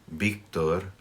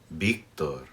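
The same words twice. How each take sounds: No difference in how they are said.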